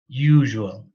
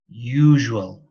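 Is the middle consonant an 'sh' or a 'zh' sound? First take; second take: zh; zh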